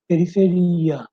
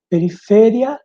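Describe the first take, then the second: First: "periferia" falling, stressed pe-ri-fe-RI-a; Portuguese stress on RI. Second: "periferia" higher, louder, stressed pe-ri-FE-ria with a rise; Spanish stress on FE. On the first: Teacher giving Portuguese contrast, falling, stressed on RI. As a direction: lengthen the RI in "periferia". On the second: Teacher giving Spanish example, raised and stressed on FE. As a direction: punch FE in "periferia". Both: Shown as a demonstration. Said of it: "E aqui outros exemplos".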